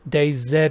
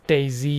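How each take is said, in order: First: It is said as two parts, Day Z. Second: It is said as one word, daisy. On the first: The speaker calls it right. "I just say DayZ" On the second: The speaker calls it wrong. "I think Daisy sounds stupid"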